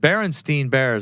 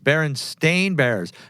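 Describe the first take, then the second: First: The last syllable of the name is said 'stein'. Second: The last syllable of the name is said 'stain'. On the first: This is how people remember the name. The speaker calls it wrong. "people were saying it wrong" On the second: This is how the name is actually written. The speaker calls it right. "I see it's Berenstain Bears"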